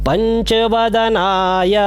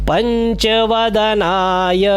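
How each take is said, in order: Both takes have the same delivery.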